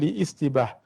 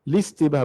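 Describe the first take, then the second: First: An extra i vowel separates l from the rest. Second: The l links straight into the next syllable. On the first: The speaker calls it wrong. "bukan liistibah" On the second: The speaker calls it right. "Kita baca listibah sebab alif lam itu terus wasal ya"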